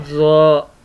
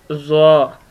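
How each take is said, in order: First: ज़्वा stretched long, slow and heavy; drawn-out heavy letter. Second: ज़्वा said thick and heavy like त्वा; heavy letter demo. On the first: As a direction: hold ज़्वा out slowly. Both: Shown as a demonstration. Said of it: "इसको भी मोटा पढ़ते हैं".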